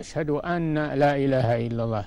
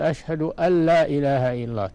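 First: The n is pronounced separately before the l. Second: The n merges into a doubled l sound. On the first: The speaker calls it wrong. "الأول ما هو بصحيح" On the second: The speaker calls it right. "تدغم النون في اللام مشددة"

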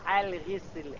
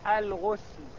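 First: The first vowel is i. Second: The first vowel is u. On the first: "بالكسر" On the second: "بالضم"

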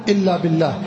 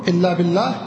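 No difference in how they are said.

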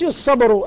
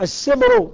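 First: The s sound is emphatic and heavy. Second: The s sound is plain and light. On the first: The speaker calls it wrong. "مش الصبر" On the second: The speaker calls it right. "بس مش يديروه صاد"

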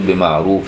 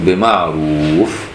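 First: The word ends with an added -in sound. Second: The word ends on a bare final f sound. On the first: The reciter is continuing into the next words. "عايز توصل تقول بمعروف وتكمل" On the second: The reciter is stopping at this word. "لما توقف تقول بمعروف، أما توقفش على تنوين"

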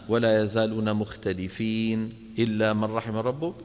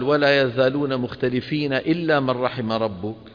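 First: There is a pause after mukhtalifin. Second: It runs on without a pause after mukhtalifin. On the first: It follows the practice of stopping at verse ends. "كما فعلنا نحن الآن" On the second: It keeps the complete meaning together. "أتى بها مع بعض"

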